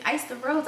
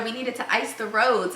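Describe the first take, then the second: First: "Ice the roads" said softly with a rising end; questioning echo. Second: Said in the usual way. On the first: Retold or imitated. Husband questions her slip, retold.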